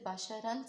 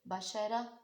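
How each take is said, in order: First: The word ends with an 'an' and 'n' sound. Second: The word ends with a lengthened 'a' vowel. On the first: The reader joins this word to the next one. "इसी तरीके से बाशारन से बाशारा" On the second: The reader stops on this word. "इसी तरीके से बाशारन से बाशारा"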